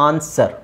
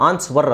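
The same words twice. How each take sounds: First: ಆನ್ಸರ್ with a silent w, said as ansar; ಆನ್ಸರ್ modelled right, no w at all; correct pronunciation. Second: ಆನ್ಸ್ವರ್ with the w sounded, as the mistake; ಆನ್ಸ್ವರ್ said wrongly with a w before the r sound; wrong pronunciation. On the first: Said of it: "ಡಬ್ಲ್ಯೂನೇ ಹೇಳೋಂಗಿಲ್ಲ". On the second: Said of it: "ಆನ್ಸ್ವರ್ ಅಲ್ಲ". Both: Shown as a demonstration.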